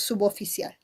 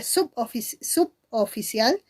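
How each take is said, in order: First: "suboficial" run together as su-bo-fi-cial; "suboficial" as one word, no break after sub; linked syllables. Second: "suboficial" split as sup; prefix separated. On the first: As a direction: join the B to the O in "suboficial". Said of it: "y otros suboficial". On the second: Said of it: "Algunos dicen que se lee". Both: Shown as a demonstration.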